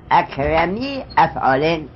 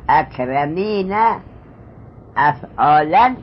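First: اکرمی افعالین read slowly as "akramī af'ālin"; اکرمی running into افعالین, which ends in "-in"; nun dropped, joined. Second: اکرمین افعالا with the final "-na" sounded, then "af'ālan"; اکرمین ending in an audible "-īna", افعالا in "-an"; nun kept, unjoined. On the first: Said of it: "نونش به اضافه افتاده". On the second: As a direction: slowly read اکرمین افعالا as "akramīna af'ālan", nun intact. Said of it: "که اینجا اضافه نشده". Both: Shown as a demonstration.

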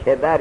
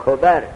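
First: کبر read "kebar", with an e; kebar, short e opening کبر; first-vowel variant. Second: کبر read "kobar", with an o; kobar, short o opening کبر; first-vowel variant. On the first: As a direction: say کبر with an e after the k: KE-bar. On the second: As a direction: say کبر with an o after the k: KO-bar. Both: Shown as a demonstration. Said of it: "کبر یا کبر".

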